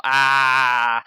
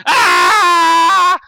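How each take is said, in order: First: Loud, sustained "ah" yell; held open yell, short of a scream; demonstrated yell. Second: Very loud, high-pitched scream; piercing sustained joke scream; full-out yell. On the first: Shown as a demonstration. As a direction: show how the yell would go. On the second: Pretend. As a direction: scream a long "ah" without warning. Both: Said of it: "I was just gonna yell".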